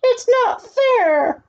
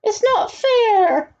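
First: Very high, slow drawn-out wail; spoiled duke wailing that it is unfair; tantrum wail. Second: High, slow stretched-out whine; spoiled duke wailing that it is unfair; tantrum wail. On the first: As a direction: cry it out even harder like a spoiled brat. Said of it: "cried the Grand Duke". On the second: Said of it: "cried out". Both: A narrator's reading.

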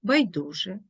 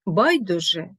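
First: Байдуже as байДУже; stress on second syllable. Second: Байдуже as БАЙдуже; stress on first syllable. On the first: Teacher showing double stress, байдуже stressed on ДУ. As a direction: lean on ДУ in байдуже. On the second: Teacher showing double stress, байдуже stressed on БАЙ. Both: Shown as a demonstration. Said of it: "мають подвійний наголос".

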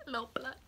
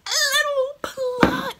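First: Soft, higher, understated little phrase; small hushed take. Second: Very high, loud, drawn-out squeal; screeched repeat. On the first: Vlogger retelling the boy coming in, small hushed take. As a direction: say it small and quietly. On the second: Vlogger reacting to the little pluck, screeched repeat. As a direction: shriek it slowly, hammed up. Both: Retold or imitated.

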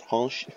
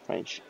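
First: French pronunciation, lifted in pitch; French accent. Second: Said in the usual way. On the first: Shown as a demonstration. Player showing off their French, in a French accent. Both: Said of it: "I actually can speak French".

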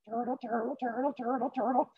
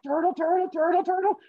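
First: Small, high, soft chant; quiet high-pitched patter, evenly repeated; turtle trudging along. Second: High, squeaky rhythmic chant; very high-pitched patter of effort; running turtle. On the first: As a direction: chug along softly as a tiny cartoon turtle. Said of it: "still just turtling along". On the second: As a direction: chug along as a cartoon turtle at top effort. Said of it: "And the turtle's like". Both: Acted.

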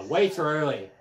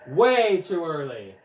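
First: Said in the usual way. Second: "Way" stretched long and loud, then falling; drawn-out WAY. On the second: Real, not acted. Player scolds own mistimed swing, "Way" drawn out in frustration. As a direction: say it slowly, leaning hard on "Way".

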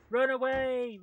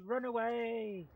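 First: Loud, high cry to flee; full-voiced alarm; panicked shout. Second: Slowed, comic repeat of the alarm; drawn-out cry. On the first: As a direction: scream it as you bolt. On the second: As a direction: stretch the words as you flee. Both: Real, not acted. Fleeing danger in game.

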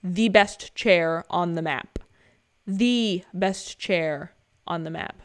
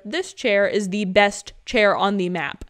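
First: Slower and slower, drawn out; slow repeat. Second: Slow and loud, each word weighted; emphatic praise. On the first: Gamer echoing his favourite chair, slowing right down. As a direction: let the words stretch out slowly. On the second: Gamer hyping his favourite chair, slow and loud. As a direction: lean hard on the best chair. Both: Shown as a demonstration. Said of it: "repeated for emphasis".

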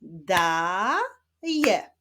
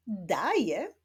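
First: "daje" stretched out as daaa... je; long held first syllable in "daje", pause, then je. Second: Said in the usual way. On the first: Shown as a demonstration. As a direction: build up "daje" slowly from its two syllables. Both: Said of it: "Rozwiązaniem rebusu będzie wyraz".

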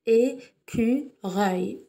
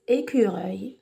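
First: "Écureuil" very slowly in three beats, É, cu, reuil; split into syllables. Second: Said in the usual way. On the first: Shown as a demonstration. Teacher counts three sounds for children, "Écureuil" syllable by syllable. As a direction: pause after each syllable of "Écureuil". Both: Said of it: "nous avons trois syllabes".

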